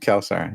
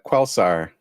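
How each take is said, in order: First: It begins with a plain k sound. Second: It begins with a kw sound. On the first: The speaker calls it right. "but it's actually" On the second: The speaker calls it wrong. "you said you said uh"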